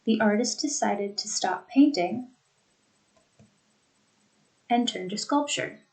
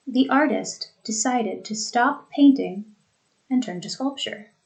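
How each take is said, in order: First: "The artist decided to stop painting", very long pause, "and turn to sculpture"; two thought groupings. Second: "The artist decided to stop painting", short pause, "and turn to sculpture"; smooth to "painting", brief break, then finish; two thought groupings. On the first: Teacher making the groupings obvious, long pause after "painting". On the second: Teacher letting students hear groupings, short pause after "painting". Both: Shown as a demonstration. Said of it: "Two thought groupings".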